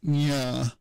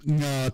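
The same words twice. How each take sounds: First: NYA with a y-glide after the nasal; nya, palatal onset; sound-change demo. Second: NGA with no y-glide after the initial nasal; nga, glide-free onset; sound-change demo. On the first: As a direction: say "nya" with a y before the vowel. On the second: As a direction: say "nga" as one nasal straight into the vowel. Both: Shown as a demonstration. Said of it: "sound change of nga to".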